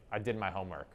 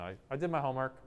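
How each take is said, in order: First: "I did my homework" level and settling down at the end; authoritative statement. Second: "I did my homework" pitched higher, lifting up; passive upward inflection. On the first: Student telling the authority about homework, too authoritatively. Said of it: "Maybe that's a little too authoritative". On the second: Student deferring to the authority about homework, voice turned upward. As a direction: raise "I did my homework" as if asking permission. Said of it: "a little more up". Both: Shown as a demonstration.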